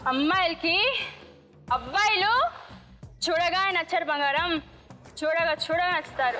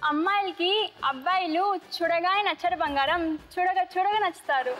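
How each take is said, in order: First: It is said angrily. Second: It is said plainly, without strong emotion.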